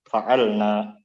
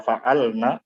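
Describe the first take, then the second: First: The final vowel is long. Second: The final vowel is short.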